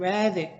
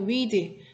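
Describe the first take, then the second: First: The vowel is a short 'e' sound. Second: The vowel is a long 'ee' sound. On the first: It is the past tense form. "발음할 때는 read" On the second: It is the present tense form. "현재형이 read"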